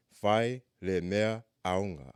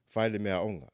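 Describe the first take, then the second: First: Fai le mea aonga spelled out slowly, each syllable clear; slow it right down so learners can follow; slow, careful demo. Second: Said in the usual way. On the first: Shown as a demonstration. Teacher slowing down the phrase for students to repeat, slow and careful. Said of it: "I'm gonna try to say 'em slow". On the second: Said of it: "it's hard for me to say 'em slow".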